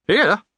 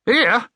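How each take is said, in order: First: Outraged disbelief. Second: Much higher, louder indignant "Here?"; outraged disbelief, rising. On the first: Gatekeeper outraged. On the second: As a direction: repeat "Here?" even more appalled. Outraged repeat. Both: Acted.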